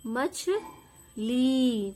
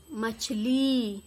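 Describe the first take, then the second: First: मछली repeated, even slower and drawn out; repeated dictation. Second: Slow, drawn-out मछली for dictation; dictation word. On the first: Teacher repeating मछली slowly for pupils to write. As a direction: stretch मछली out once more for the class. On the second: Teacher dictating मछली slowly to pupils. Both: Shown as a demonstration. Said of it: "क्या बोला मैंने".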